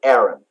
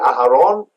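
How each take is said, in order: First: It has two syllables with no inner h. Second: It has three syllables with an inner h. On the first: "So it's the English is Aaron" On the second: "In Hebrew, we say Aharon"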